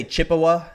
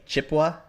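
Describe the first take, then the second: First: Chippewa in three full syllables, CHIP-uh-wah; former pronunciation. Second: Chippewa squeezed to two syllables, CHIP-wah; local pronunciation. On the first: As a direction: sound out the middle vowel in Chippewa. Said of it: "I used to say". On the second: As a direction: drop the middle vowel of Chippewa. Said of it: "Now I just say". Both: Shown as a demonstration.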